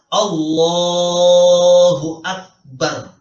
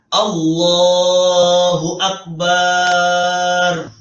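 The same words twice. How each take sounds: First: The vowel after b in Akbar is kept short. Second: The vowel after b in Akbar is drawn out. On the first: It means God is greatest. The speaker calls it right. "Jadi yang benar" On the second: It would mean a word for menstruation. The speaker calls it wrong. "Bukan bukan"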